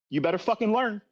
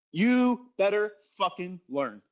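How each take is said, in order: First: Said in the usual way. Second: Slow, deliberate "You better fucking learn"; slow emphatic warning. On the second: Real, not acted. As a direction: drag each word out to drive it home.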